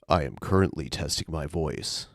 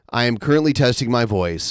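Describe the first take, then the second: First: It is said in a deliberately lowered voice. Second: It is said in a normal speaking voice.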